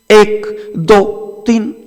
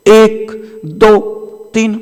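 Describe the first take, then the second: No difference in how they are said.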